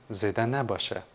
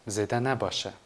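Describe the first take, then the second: No difference in how they are said.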